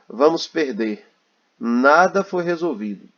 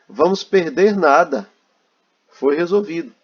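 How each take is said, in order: First: There is a pause after 'perder'. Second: There is a pause after 'nada'. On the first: The game will be lost and nothing was solved. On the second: Nothing will be lost because it was solved.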